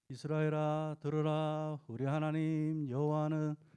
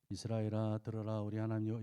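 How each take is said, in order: First: The voice is pitched high. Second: The voice is pitched low. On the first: The speaker calls it right. "이렇게 솔로 하시면은" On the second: The speaker calls it wrong. "도레미로 하면"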